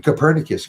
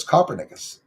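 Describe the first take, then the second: First: Copernicus said co-PER-ni-cus; standard pronunciation of Copernicus. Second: Copernicus said like "copper-nickus", stress on the first syllable; mispronounced Copernicus. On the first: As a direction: stress the second syllable of Copernicus. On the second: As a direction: hit the front of Copernicus, as in "copper". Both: Shown as a demonstration. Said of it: "the way I was pronouncing it was".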